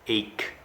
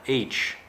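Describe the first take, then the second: First: It rhymes with take, ending in a k sound. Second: It sounds like the letter H, ending in ch. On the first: The speaker calls it right. "it's ache" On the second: The speaker calls it wrong. "A very common mistake I hear students make is saying H, like the letter H. It is not H"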